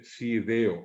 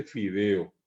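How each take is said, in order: First: Sideo, slow, with s for f. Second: Said in the usual way. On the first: Shown as a demonstration. Teacher shows how Guaraní speakers say fideo. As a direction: stretch sideo out slowly, s in place of f. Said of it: "dice sideo". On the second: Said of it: "la gente no dice fideo".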